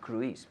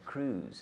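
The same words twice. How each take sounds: First: The name is pronounced in a Spanish-like way. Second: The name is pronounced the English way. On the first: The speaker calls it wrong. "Not Cruise" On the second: The speaker calls it right. "We say in English, Tom Cruise. ... but Cruise"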